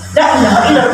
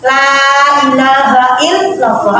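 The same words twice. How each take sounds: First: The vowel in 'la' is cut short. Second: The vowel in 'la' is held long. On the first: There truly is a god other than Allah. The speaker calls it wrong. "Tapi yang mengulangi pendek" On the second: There is no god worthy of worship except Allah. The speaker calls it right.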